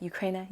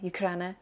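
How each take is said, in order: First: "Ukraina" with an AY in the middle, you-CRAY-na; soft, tentative "Ukraina" rhyming with "rainer"; trying a pronunciation. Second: "Ukraina" with an open AH in the middle, you-KRAH-na; soft, questioning "Ukraina" with a flat foreign A; alternative pronunciation. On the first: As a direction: say "Ukraina" quietly with a long English A. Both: Shown as a demonstration. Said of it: "I don't know how to say that".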